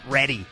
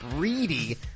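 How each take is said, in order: First: The first vowel is a short 'eh' sound. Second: The first vowel is a long 'ee' sound. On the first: The speaker calls it wrong. "not Reddy. That's my bad" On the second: The speaker calls it right. "It's Bishop Reedy"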